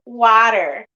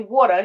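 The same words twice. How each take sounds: First: Said in an imitated, cartoonish, whiter-sounding accent. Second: Said in the speaker's own everyday accent. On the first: Someone else said it. "he's saying "water," ... he sounds like SpongeBob when he says it" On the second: This is how people normally say it. "he's not saying it the normal way"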